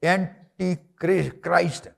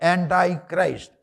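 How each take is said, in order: First: The first part ends with a 'tee' sound. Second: The first part ends with a 'tie' sound. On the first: The speaker calls it wrong. "It's a wrong pronunciation" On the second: The speaker calls it right. "యాంటై క్రైస్ట్ అనండి"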